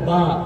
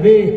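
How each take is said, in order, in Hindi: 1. अक्षर के नाम का अंत 'a' स्वर से होता है। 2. अक्षर के नाम का अंत 'e' स्वर से होता है। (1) "लेकिन अब कहा जाता है उसको बा" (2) "पहले के लोग कहते हैं बे"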